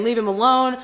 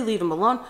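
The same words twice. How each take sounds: First: Louder, urgent plea; begging him to stop, raised voice; pleading shout. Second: Said in the usual way. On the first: Retold or imitated. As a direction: sister pulling her brother away, pleading loudly. Pulling brother off Brett.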